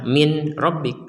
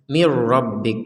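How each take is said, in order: First: The n is pronounced separately before the r. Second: The n merges fully into a doubled r. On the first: The speaker calls it wrong. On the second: The speaker calls it right.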